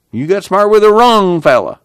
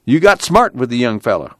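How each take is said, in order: First: "wrong" pushed high and louder; stress on wrong. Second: Said in the usual way. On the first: Acted. Casey warning the deputy, stress on "wrong". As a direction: hit "wrong" hard and high.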